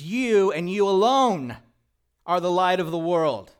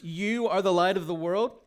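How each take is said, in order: First: Louder, with the weight on "alone"; emphatic, stress on alone. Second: Said in the usual way. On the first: Shown as a demonstration. Pastor showing the church the emphatic reading, stress on "alone". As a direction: lean hard on "you" and "alone". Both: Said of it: "a better way to say that is".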